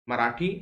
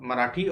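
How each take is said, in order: No difference in how they are said.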